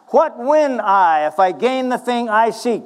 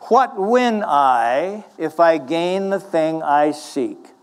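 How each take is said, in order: First: It is said fast. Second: It is said slowly.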